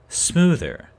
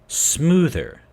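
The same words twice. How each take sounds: The two takes are said the same way.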